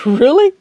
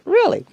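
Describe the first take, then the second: First: Rising doubtful really; a questioning tune rising on Really; incredulous question. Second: High, falling, emphatic Really; Really dropped flat and final; firm reply. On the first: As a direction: ask it like you can't believe it. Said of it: "he said". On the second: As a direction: insist on it, no argument. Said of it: "I said". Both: Retold or imitated.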